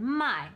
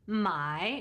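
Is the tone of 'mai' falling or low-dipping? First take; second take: falling; low-dipping. First: The syllable is said with a sharp falling tone. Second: The syllable is said with a low dipping tone. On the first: It means to sell. "my is to sell" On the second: It means to buy. "my is to buy"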